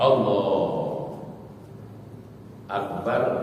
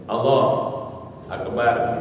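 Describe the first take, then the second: First: There is a long pause between the words. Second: There is a short pause between the words.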